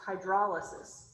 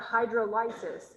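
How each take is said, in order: First: Hydrolysis said as "hy-DROL-uh-sis"; corrected hydrolysis. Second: Hydrolysis said as "hydro-LYE-sis"; mispronounced hydrolysis. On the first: Chemistry teacher correcting the reading, hydrolysis as "hy-DROL-uh-sis". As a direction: stress the second syllable of hydrolysis, with a short "drol". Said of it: "it's hydrolysis". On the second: Chemistry teacher showing the wrong reading, hydrolysis as "hydro-LYE-sis". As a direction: stress the third syllable of hydrolysis, rhyming it with "lices". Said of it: "it's not hydrolysis". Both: Shown as a demonstration.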